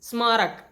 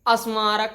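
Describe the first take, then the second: First: The word starts directly with the consonant cluster. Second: An extra vowel is added before the cluster. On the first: The speaker calls it right. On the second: The speaker calls it wrong.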